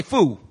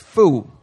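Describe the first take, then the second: First: Said in the usual way. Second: "Fool." with the L dropped, like foo; Philly fool. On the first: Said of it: "Everybody say". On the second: Shown as a demonstration. Preacher showing the Philly way to say fool, dropped L. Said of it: "you don't say the L".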